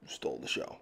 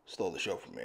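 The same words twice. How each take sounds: First: "stole the show" breathed in a whisper; whispered aside. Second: Said in the usual way. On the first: Real, not acted. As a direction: let it slip out as a secret whisper. Whispered repeat of praise.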